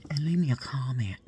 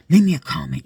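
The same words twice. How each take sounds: First: Whispered plea. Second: Much louder repeat, calling out "Leave me a comment"; loud demand. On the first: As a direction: whisper the request to comment. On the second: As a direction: shout the request at the viewers. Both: Real, not acted.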